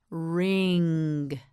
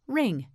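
First: "Ring" drawn out, holding the final ng; stretched model word. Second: Said in the usual way. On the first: Shown as a demonstration. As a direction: stretch "Ring" long and level. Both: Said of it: "You say it".

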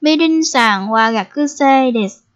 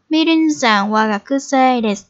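First: Slow, careful first take of "Mirin-san wa gakusei desu"; teacher's slowed demo of "Mirin-san wa gakusei desu"; slow model sentence. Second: Said in the usual way. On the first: Shown as a demonstration. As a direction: spell out each syllable of "Mirin-san wa gakusei desu" for learners. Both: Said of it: "Bây giờ chúng ta sẽ giới thiệu về chị Mỹ Linh nha".

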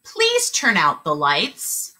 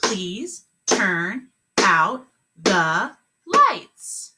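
First: Slow and clear; slow model sentence. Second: Very slow, word by word; clapped words. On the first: Teacher modeling the last sentence, slow and clear. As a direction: model it slowly. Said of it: "Last one". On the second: Teacher clapping the sentence, very slow. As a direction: clap each word slowly. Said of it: "Let's clap it". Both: Shown as a demonstration.

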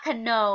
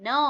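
First: "cano" with a K sounded before the N; wrongly sounded K. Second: "no" starting straight on the N; silent K. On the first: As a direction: say "cano" in two syllables, kuh-NO. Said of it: "ไม่อ่านว่า". (อ่าน "cano" แบบออกเสียง K เป็น คะ-โน) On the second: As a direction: say "no" as one syllable, no K sound. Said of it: "ไม่ออกเสียง ออกเสียงตั้งแต่ตัว N". (อ่าน "no" ไม่ออกเสียง K เริ่มที่เสียง N) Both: Shown as a demonstration.

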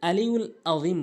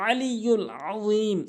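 First: আলিউল আযীম with plain light vowels; hamza replacing ain. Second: আলিউল আযীম with both first vowels squeezed in mid-throat; correct ain. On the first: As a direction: say আলিউল আযীম without throat sounds. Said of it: "দুটিতেই হামজা এনে উচ্চারণ করে". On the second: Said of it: "এখানে বলতে হবে". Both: Shown as a demonstration.

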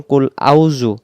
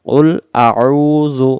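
First: আউযু run together as a quick "au-zu"; ayn dropped. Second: আউযু slow, with a long throat-squeezed ayn before উ; throaty ayn. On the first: Teacher showing the mistake, আউযু with ayn left out. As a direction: say আউযু with no throat sound, vowels merged. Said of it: "আইন অক্ষরটা বাদ যায়". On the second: Teacher showing learners the ayn in আউযু, slow recitation. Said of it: "আইন অক্ষর গলা চেপে". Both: Shown as a demonstration.

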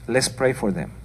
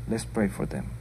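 First: Said in the usual way. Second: Repeated much softer and lower, almost to herself. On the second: Real, not acted. Preacher urging the congregation to pray, softly. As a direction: drop the voice for the second "Let's pray for them.".

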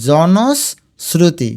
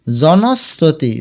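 First: জনশ্রুতি very slowly as jonos, sruti; long pause inside জনশ্রুতি; broken into parts. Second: Said in the usual way. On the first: Shown as a demonstration. Teacher shows students the sibilant, জনশ্রুতি slowly split. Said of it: "উচ্চারণ চ এর মতো হয়েছে".

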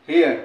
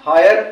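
First: हियर with a short "हि-अर" glide, falling; heir said clearly. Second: हायर with a full "हा-यर" glide, stressed; hire said clearly. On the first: (हियर को "हि-अर" बोलो, नीचे गिरती आवाज़ में) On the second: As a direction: say हायर as "hai-yer" to contrast. (हायर को "हाय-र" बोलो, साफ़ और ज़ोर से) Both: Shown as a demonstration. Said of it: "इसकी प्रोनाउंसिएशन और इसकी प्रोनाउंसिएशन में डिफरेंस है".

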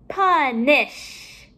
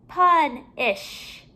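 First: Said in the usual way. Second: PUNISH with a break before "ish", higher; ending separated. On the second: Shown as a demonstration. Teacher comparing word endings for pupils, final syllable separated. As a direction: split PUNISH in two and let it fall.

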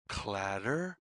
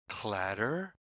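The two takes are said the same way.

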